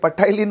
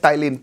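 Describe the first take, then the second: First: The word begins with an audible p sound. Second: The word begins with no p sound. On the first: The speaker calls it wrong. "पटाइलिन मत बोलना ना गलती से" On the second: The speaker calls it right. "पी silent है"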